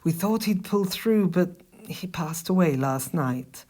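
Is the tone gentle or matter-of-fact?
gentle. It is said in a soft, gentle tone. The speaker is sensitive to someone's loss. The speaker calls it right. "you would have to say it a little bit nice"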